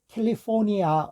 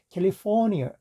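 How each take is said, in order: First: The final vowel is a full 'ah' sound. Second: The final vowel is a weak 'uh' sound. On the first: The speaker calls it wrong. "우리 이렇게 하지만" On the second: The speaker calls it right. "이렇게 처리를 하게 됩니다"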